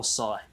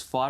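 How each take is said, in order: First: "Psi" with an S sound at the start; "Psi" as "sigh"; Psi pronounced "sigh". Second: "Phi" with an F sound at the start; "Phi" as "fie"; Phi pronounced "fie". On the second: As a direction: say "Phi" to rhyme with "pie", starting on F. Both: Shown as a demonstration. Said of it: "depending on how you say it".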